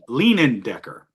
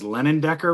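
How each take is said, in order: First: The first name sounds like 'Leanin'. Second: The first name sounds like 'Lennon'. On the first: The speaker calls it right. "but I know it's not Lennon Decker. It's Lean, Leanin Decker" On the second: The speaker calls it wrong. "I'm going to mispronounce his name as Lennon Decker"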